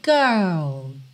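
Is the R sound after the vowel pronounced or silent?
silent. It is said in a British accent, R silent.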